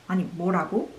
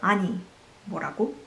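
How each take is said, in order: First: It is said quickly and sharply. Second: It is said slowly with heavy emphasis.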